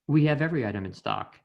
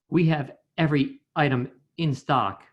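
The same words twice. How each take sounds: First: The words flow together without breaks before vowels. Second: Glottal stops break the words before vowels. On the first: The speaker calls it right. "rather than" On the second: The speaker calls it wrong. "the example with a glottal stop would be"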